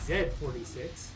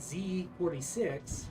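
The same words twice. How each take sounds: First: The name is read with German pronunciation. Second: The name is read with English pronunciation. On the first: "if it was German, it would be Z forty-six" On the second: "I want to say Z forty-six"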